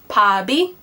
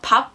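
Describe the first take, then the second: First: The consonant carries over into the next syllable. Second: The syllables are said separately, not linked. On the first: The speaker calls it right. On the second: The speaker calls it wrong.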